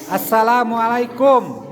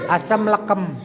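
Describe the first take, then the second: First: The greeting is said with every syllable. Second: The greeting is clipped into two short chunks. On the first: The speaker calls it right. "yang benar" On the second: The speaker calls it wrong.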